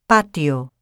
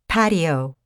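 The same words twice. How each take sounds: First: The first consonant has no puff of air. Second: The first consonant has a puff of air. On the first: "No such explosion of air occurs in Spanish" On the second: "the English T is pronounced with the tongue further back on the alveolar ridge"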